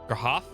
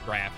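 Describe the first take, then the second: First: The name has an H sound between vowels. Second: The name is one syllable with no H sound. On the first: "Could be Grahaf" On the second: "You just don't pronounce the H"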